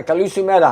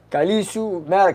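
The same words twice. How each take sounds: First: "Kalisu Mera" settled with a falling end; confident second try at "Kalisu Mera"; Greek greeting said firmly. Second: "Kalisu Mera" read with a rising question; trying out "Kalisu Mera"; Greek greeting. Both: Shown as a demonstration. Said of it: "That's Kalisu Mera".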